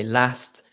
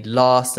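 First: "last" with a short northern vowel; short-A "last", set down as one's own way. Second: "last" with the AH of "father"; long-A last. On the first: Shown as a demonstration. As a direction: say "last" with the A of "cat". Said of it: "and I would say last". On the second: Retold or imitated. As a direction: say "last" as "lahst". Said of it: "you would say last".

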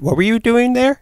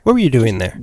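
First: High-pitched, playful mock-nosy question; teasing question. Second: Said in the usual way. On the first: Same question asked twice, teasingly.

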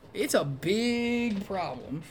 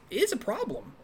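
First: Long, drawn-out "big"; stress on BIG. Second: High-pitched, soft aside; understated admission. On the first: Movie critic admitting the flaw, hard stress on "big". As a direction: stretch "big" slowly and hold it high. Repeats it, stretching the key word. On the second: Understating, then intensifying the problem. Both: Real, not acted.

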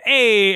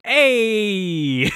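First: A loud, brash New York "Hey."; mock New York accent. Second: A hammed-up New York "Hey." punched louder; a light New Yorker "Hey."; mock New York accent. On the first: Retelling the charades slip, loud mock New York "Hey.". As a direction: bark a pushy New Yorker "Hey.". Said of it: "And she said". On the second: Retelling a charades round of accents, mock New York "Hey.". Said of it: "Skylar got Canada and she said".

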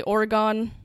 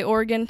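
First: "Oregon" as OR-uh-gone, three syllables; alternative pronunciation. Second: "Oregon" as OR-gun, two syllables; speaker's chosen pronunciation. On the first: Host showing how others say it, "Oregon" said as OR-uh-gone. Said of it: "Some people say Oregon". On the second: Host picking a state pronunciation, "Oregon" said as OR-gun. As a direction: say "Oregon" with a reduced ending, like OR-gun. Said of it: "ten different ways that people say Oregon". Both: Shown as a demonstration.

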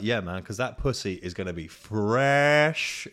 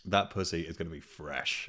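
First: Slow, savouring each word; lightly voiced lad, slow and a bit louder; leering mate. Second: Said in the usual way. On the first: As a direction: drag out the line with a leer. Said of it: "He's like". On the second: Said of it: "restated plainly".

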